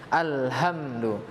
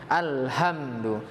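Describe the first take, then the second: Both takes have the same delivery.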